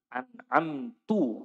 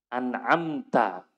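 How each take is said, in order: First: The word ends with a 'u' vowel. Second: The word ends with an 'a' vowel. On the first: The speaker calls it wrong. "Ini lahan jali" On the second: The speaker calls it right. "harusnya apa?"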